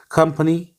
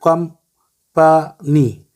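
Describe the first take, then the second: First: Said in the usual way. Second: company slowly split as कं-प-नी; syllable by syllable. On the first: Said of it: "ये pronunciation इसकी हमने बताई". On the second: Shown as a demonstration. Teacher counting syllables for pupils, company said in three parts. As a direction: break company into three separate beats with pauses. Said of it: "इसके तीन syllable हैं".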